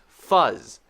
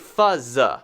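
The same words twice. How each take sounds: First: The word ends on the z with nothing added. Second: An extra vowel sound follows the final z. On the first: The speaker calls it right. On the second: The speaker calls it wrong.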